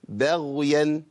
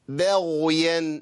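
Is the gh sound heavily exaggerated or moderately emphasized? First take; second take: moderate; exaggerated. First: The gh sound is only moderately emphasized. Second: The gh sound is heavily over-emphasized. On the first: The speaker calls it right. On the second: The speaker calls it wrong.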